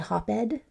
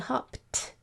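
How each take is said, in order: First: The ending is pronounced as a separate ed syllable. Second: The ending is a single t sound, no extra syllable. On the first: The speaker calls it wrong. "it doesn't sound like ed? We don't say hop-ed" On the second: The speaker calls it right. "We say hopped. So the sound that's coming out there is a t sound"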